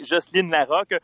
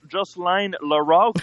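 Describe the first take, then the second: First: The name is pronounced the French way. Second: The name is pronounced the English way.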